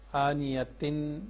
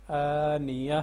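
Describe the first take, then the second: First: آنیتن read with the full tanween ending, tin; the mistaken tanween reading of آنیتن; wrong reading. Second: At the pause say آنیہ ending in a breathy h, no tin; correct pause reading. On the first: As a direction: pronounce آنیتن sounding the final tin, the way not to read it at a pause. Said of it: "آنیتن نہیں پڑھیں گے". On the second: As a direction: stop on آنیہ the proper way, ending in h. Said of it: "ایسے پڑھنا ہے". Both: Shown as a demonstration.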